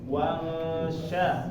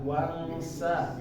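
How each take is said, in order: First: The consonant is a hushing sh sound. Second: The consonant is a hissing s sound. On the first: The speaker calls it right. "titik tiga itu shin" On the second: The speaker calls it wrong. "jangan wangsa, wangsa. Oh, itu sin jadinya"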